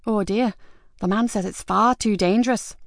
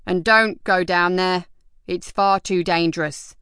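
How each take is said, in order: First: 1 softly mocking. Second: 1 called out. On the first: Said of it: "said softly". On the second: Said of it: "called out as he went". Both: A narrator's reading.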